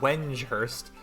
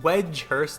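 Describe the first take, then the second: First: It is said with an N sound. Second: It is said without an N sound. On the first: The speaker calls it wrong. "I swear there's an N in there, but apparently there's not" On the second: The speaker calls it right. "it's called Wedgehurst"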